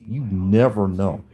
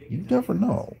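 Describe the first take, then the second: First: Said in the usual way. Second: Pitched up high, leaning on "never"; insistent warning, stress on "never"; emphatic repeat. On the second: Real, not acted. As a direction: hit "never" hard and high, then let "know" fall.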